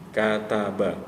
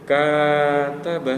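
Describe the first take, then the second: First: The first vowel is short, one beat. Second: The first vowel is lengthened with a rising swing. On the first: The speaker calls it right. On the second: The speaker calls it wrong.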